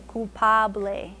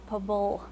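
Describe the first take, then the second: First: The word ends with an 'eh' vowel sound. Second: The word ends on the 'bl' sound. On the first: "But it's ble because it's that A sound" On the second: "In English, we just say, you know, we just stop at the ble"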